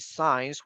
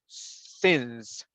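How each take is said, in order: First: The word sounds like 'signs'. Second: The word sounds like 'since'. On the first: The speaker calls it wrong. "We don't say signs" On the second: The speaker calls it right. "we say since"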